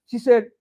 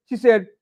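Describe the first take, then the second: No difference in how they are said.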